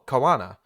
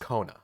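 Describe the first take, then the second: First: The O and A are said as separate vowels. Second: The O and A merge into one vowel. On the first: The speaker calls it wrong. "any word that had like an O A, I wanted to go oa" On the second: The speaker calls it right. "it's just Kona"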